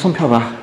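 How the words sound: It is said in an irritated, impatient tone. The speaker is venting anger on the listener. The speaker calls it wrong. "화가 안 풀려가지고 야, 빨리 손 펴봐. 내 지금 기분이 별로니까"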